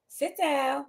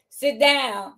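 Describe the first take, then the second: First: It is said in a raised, higher pitch. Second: It is said in a normal speaking pitch. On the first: The teacher is putting on a voice because an administrator is watching. The speaker calls it wrong. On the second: The teacher is speaking naturally. The speaker calls it right.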